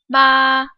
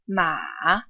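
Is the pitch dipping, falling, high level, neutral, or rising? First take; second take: high level; dipping. First: The pitch stays high and level. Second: The pitch dips low, then goes back up. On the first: "The first tone is high-pitched and flat" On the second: "The third tone dips and goes back up"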